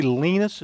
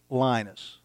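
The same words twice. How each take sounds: First: "Linus" pronounced LEE-nus; long-ee pronunciation. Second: "Linus" pronounced LYE-nus; long-i pronunciation. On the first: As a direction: give "Linus" an "ee" vowel, as in "lean". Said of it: "is the correct pronunciation". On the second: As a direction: give "Linus" an "eye" vowel, as in "line". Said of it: "I like to pronounce it Linus". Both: Shown as a demonstration.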